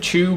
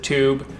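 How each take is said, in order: First: The word begins with a ch sound. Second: The word begins with a clear t sound. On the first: This is how it is said in London. "Do you only pronounce it tube in London" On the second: This is how it is said elsewhere in the country. "the rest of the U K pronounces it tube"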